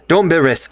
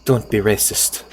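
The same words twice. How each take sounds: First: Said in the usual way. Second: Put-on a slow, softer Garnet accent; lightly put-on Garnet accent, said slow. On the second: Streamer quoting Garnet's line to chat, in her accent. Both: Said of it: "I always give her that accent".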